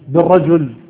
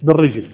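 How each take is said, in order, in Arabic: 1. تُقال الكلمة 'birajul' بحركتين. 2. تُقال الكلمة 'birijl' بحركة واحدة. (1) "الصواب الضم" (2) "وليس المراد بالرجل"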